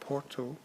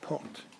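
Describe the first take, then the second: First: The final O is clearly sounded. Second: The final O is dropped. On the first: "instead of saying Porto" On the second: "they drop the O"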